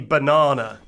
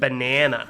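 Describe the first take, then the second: First: It is said with a non-American accent. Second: It is said with an American accent. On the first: "they get to hear me say banana" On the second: "rather than banana"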